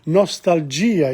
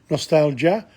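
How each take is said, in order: First: The word is pronounced as in Italian. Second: The word is pronounced as in English. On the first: "in Italian" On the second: "nostalgia in English"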